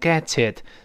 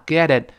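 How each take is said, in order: First: The t links clearly into the following vowel. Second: The t is voiced into a soft d-like tap. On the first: "连读变成get it" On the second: "再快了浊化get it"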